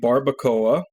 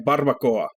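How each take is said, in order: First: It is said with an English-speaking accent. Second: It is said with a native Spanish accent. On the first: The speaker calls it wrong. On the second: The speaker calls it right.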